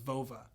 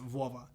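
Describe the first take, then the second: First: It is said with an American accent. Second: It is said with a Russian accent.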